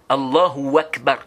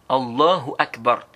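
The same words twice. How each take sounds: First: An extra w sound joins Allahu to Akbar. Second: The h sound in Allahu is clearly pronounced. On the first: The speaker calls it wrong. "comme on dit Allahu et puis tu ajoutes le wa" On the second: The speaker calls it right. "Et tu prononces bien le, le ha"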